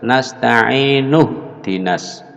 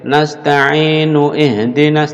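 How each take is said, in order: First: The vowel starting ihdinas is dropped after nasta'inu. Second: The vowel starting ihdinas is kept after nasta'inu. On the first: The speaker calls it right. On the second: The speaker calls it wrong. "tidak boleh"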